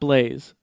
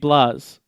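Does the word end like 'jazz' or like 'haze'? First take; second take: like haze; like jazz. First: The vowel is long, rhyming with 'haze'. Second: The vowel is short, rhyming with 'jazz'. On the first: This is how the makers say the name. "not Blaze. But they pronounce it Blaze" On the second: This is how the spelling without the E reads. "that would be Blaz"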